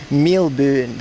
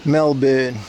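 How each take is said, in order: First: Melbourne as milben, New Zealand vowels; New Zealand accent. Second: Said in the usual way. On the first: Shown as a demonstration. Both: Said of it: "That's how New Zealand people say it".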